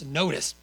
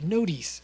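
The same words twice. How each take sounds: First: "notice" said as "NO-tis"; short, unstressed second syllable in "notice"; corrected pronunciation. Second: "notice" said as "no-dees"; accented mispronunciation. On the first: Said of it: "it's notice". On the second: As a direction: stretch the second syllable of "notice" into "dees". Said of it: "I say it notice". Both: Shown as a demonstration.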